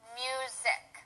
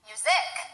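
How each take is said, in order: First: Neither syllable is stressed. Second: The stress is on the second syllable. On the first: "if we don't use any stress, it would be music" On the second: "If we stress the second syllable, it would be music"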